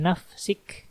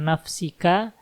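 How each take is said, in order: First: The word ends on a stopped final consonant. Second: The word ends with an added final vowel. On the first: The speaker calls it right. "tapi nafsik gitu" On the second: The speaker calls it wrong. "Jangan nafsika"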